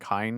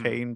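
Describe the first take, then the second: First: The vowel is said like 'eye'. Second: The vowel is said like 'ay'. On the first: This is how the name was said in the show. The speaker calls it wrong. "I just kept hearing Kine" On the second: This is how an English reader expects the name. The speaker calls it right. "I expect to hear it as"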